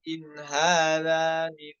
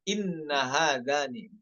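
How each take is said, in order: First: The nun is short and vowelless. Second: The nun is doubled and followed by a vowel. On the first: The speaker calls it right. "dengan sukun ya, nunnya in" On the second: The speaker calls it wrong.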